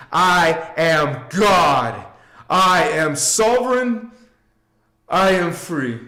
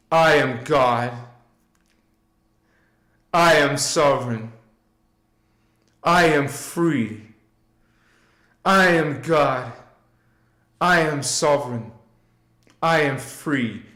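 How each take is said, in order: First: Slow, emphatic, drawn-out declaration; second round, declared with full conviction; believing affirmation. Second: Calm repeat-after-me chant; group affirmation. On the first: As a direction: stretch out "I am God" and mean every word. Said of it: "And believe it, know it, see it". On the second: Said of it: "Say it with me". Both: Shown as a demonstration.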